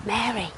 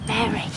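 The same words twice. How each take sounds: First: Very soft, falling name, fading away; tender near-whisper. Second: Soft, tender calling of a name; gentle calling. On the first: Jesus tenderly repeating Mary's name, softer still. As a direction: let the name fall away tenderly, almost breathed. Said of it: "And he said their names". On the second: Jesus gently calling to Mary at the tomb. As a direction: call her name gently, softer than talk. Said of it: "And then the gardener said". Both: Acted.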